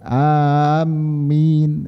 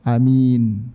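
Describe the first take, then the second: First: The m sound is doubled and held. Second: The first vowel is short, the second long. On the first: "mimnya ditasydid, ini tidak boleh" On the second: "hamzahnya dibaca pendek"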